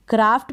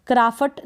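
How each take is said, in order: First: क्राफ्ट as one syllable, half f running into t; teacher's model "kraaft"; correct pronunciation. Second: क्राफ्ट split as "kraa-fat", vowel after the f; wrong pronunciation. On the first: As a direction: say क्राफ्ट as "kraaft", no vowel after the f. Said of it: "एफ को हम आधा ही pronounce करेंगे". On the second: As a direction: break क्राफ्ट into two syllables, "kraa-fat". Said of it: "इसको क्राफ्ट नहीं पढ़ेंगे". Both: Shown as a demonstration.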